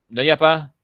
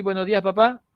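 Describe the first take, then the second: First: "Buenos días, papá" swallowed, louder; clipped quick greeting. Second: Said in the usual way. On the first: Shown as a demonstration. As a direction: slur "Buenos días, papá" into a few syllables. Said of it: "más o menos de esa manera". (saludo comido y abreviado) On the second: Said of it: "En vez de decir".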